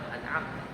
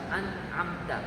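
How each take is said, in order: First: The word is said quickly at normal speed. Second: The word is said slowly and drawn out. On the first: This is how it is really said. "realmente se dice rápido, se dice an'amta, normal" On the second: It is slowed down so the error can be heard. "se la estoy haciendo despacio"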